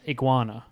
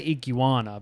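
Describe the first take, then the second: First: Some sounds in the word are dropped. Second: Every sound in the word is pronounced. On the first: "you're saying iguana" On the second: "you are pronouncing it correctly because you're saying all the letters in the word"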